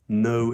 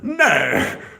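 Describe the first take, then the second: First: It is said in a plain, natural voice. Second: It is said in an exaggerated posh voice.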